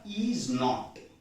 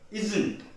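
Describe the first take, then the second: First: It is said as two full separate words. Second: It is said as one contracted word. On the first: "we have is not" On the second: "put it together and say isn't, it becomes a contraction"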